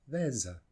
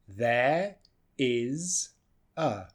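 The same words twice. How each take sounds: First: "There's a" linked, the s said as z; contracted. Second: "there is a" as three separate words; uncontracted words. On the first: Teacher showing the contraction, linked with a z. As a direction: run "There's a" together with a z sound. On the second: Teacher showing the three words, uncontracted. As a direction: say "there", "is", "a" one by one. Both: Shown as a demonstration.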